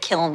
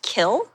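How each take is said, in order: First: The word ends with an n sound. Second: The word ends without an n sound. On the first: This is the way the speaker's own circle says it. "We say kiln here" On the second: This is the local colloquial way of saying it. "colloquially, um, kiln is pronounced kill"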